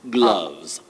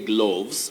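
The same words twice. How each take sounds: First: The vowel is a mid central 'uh' sound. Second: The vowel is not the mid central sound. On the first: The speaker calls it right. "letter O in that word takes the mid vowel sound or the mid central vowel sound" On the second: The speaker calls it wrong. "We don't say gloves"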